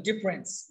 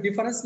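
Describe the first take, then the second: First: ডিফারেন্স squeezed into two syllables, dif-rens; contracted pronunciation. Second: ডিফারেন্স with the middle vowel fully sounded; full three-syllable pronunciation. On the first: Teacher correcting learners, ডিফারেন্স shortened to dif-rens. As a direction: drop the middle vowel of ডিফারেন্স. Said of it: "মাথায় রাখবেন ডিফারেন্স না কিন্তু ডিফারেন্স". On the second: Teacher showing learners what to avoid, ডিফারেন্স as di-fa-rens. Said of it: "ডিফারেন্স না কিন্তু ডিফারেন্স". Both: Shown as a demonstration.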